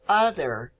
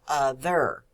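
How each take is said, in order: First: The stress is on the first syllable. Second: The stress is on the second syllable. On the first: The speaker calls it right. "We say other, ... So the first syllable is stressed" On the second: The speaker calls it wrong. "not other"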